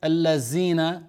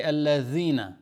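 First: "الذين" with the dhal said as a plain z or d; wrong pronunciation. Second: "الذين" with the tongue out between the teeth, a soft th-like dhal; correct dhal. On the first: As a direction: say "الذين" the wrong way, without the tongue between the teeth. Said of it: "So you don't say". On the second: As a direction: pronounce "الذين" with a proper interdental dhal. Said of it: "That's zal". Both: Shown as a demonstration.

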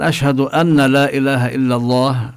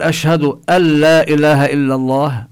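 First: أن with the nun clearly sounded before لا; wrong nun shown. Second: أن لا said as "alla", doubled lam with no nasal; nun merged into lam. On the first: Teacher showing the wrong reading, nun clearly pronounced. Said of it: "أما لو قال الإنسان". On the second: Teacher demonstrating correct recitation, nun merged into lam. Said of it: "هنا لا نلفظ النون، نشدد اللام". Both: Shown as a demonstration.

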